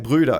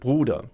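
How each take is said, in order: First: It is said with English-sounding vowels and r. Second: It is said with German vowels and r. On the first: The speaker calls it wrong. "he'll just activate his English pronunciation. So he would say" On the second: The speaker calls it right. "instead of"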